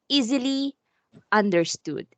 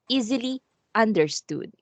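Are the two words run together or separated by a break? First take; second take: separated; separated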